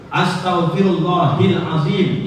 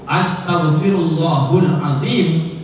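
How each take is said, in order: First: The vowel before azim is i. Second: The vowel before azim is u. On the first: "itu salah, menyalahi kaidah" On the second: "itu berubah arti dan makna"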